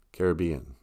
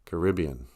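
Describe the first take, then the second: First: "Caribbean" stressed on BE: CARE-uh-BEE-un; pronunciation variant. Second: "Caribbean" stressed on RIB: kuh-RIB-ee-un; pronunciation variant. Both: Shown as a demonstration. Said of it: "people can say it either way".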